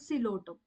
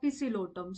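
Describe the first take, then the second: First: The word begins with an S sound, no P. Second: The word begins with a pronounced P sound. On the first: The speaker calls it right. "P is silent over here. We pronounce it as a Silotum" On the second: The speaker calls it wrong. "we are not going to pronounce the word like the Pisilotum"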